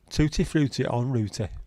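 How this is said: It is said in an Accrington accent. "Or in an Accrington-y voice"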